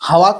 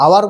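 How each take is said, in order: First: হাওয়ার with an audible h at the front; wrongly sounded h. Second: আওয়ার starting on the vowel, no h; silent h. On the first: Teacher showing students what we do not say, sounded h. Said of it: "হাওয়ার তো আর বলছি নেই". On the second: Teacher showing students what we do say, silent h. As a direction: drop the h and open আওয়ার on a vowel. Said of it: "আওয়ার বলছি". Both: Shown as a demonstration.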